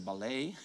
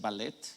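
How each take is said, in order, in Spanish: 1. Se pronuncia como lo hacen los hablantes de francés. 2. Se pronuncia como lo hacen los hablantes de español. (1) "en francés va a ser ballet" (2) "si estamos hablando en español va a ser ballet"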